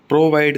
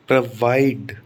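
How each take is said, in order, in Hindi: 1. Stress पहले अक्षर पर है। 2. स्ट्रेस दूसरे अक्षर पर है। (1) "प्रोवाइड नहीं होता" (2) "वाइड पर स्ट्रेस आएगा"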